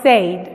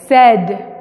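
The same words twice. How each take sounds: First: The vowel is long, rhyming with 'paid'. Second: The vowel is short, rhyming with 'bed'. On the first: The speaker calls it wrong. "no es said" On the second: The speaker calls it right. "es said. Como decir sed"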